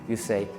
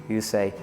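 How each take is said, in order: The two takes are said the same way.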